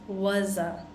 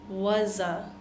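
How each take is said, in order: The two takes are said the same way.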